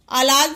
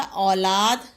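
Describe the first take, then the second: First: औलाद mispronounced as "a-laad"; quick "a" opening औलाद; misspelt word. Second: औलाद with a long opening औ; औलाद lower, sounded out as "au-laad"; corrected word. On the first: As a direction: shorten औलाद's औ to a short "a". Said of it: "शब्द नहीं होता". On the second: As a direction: draw out "au" in औलाद. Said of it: "क्या होता". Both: Shown as a demonstration.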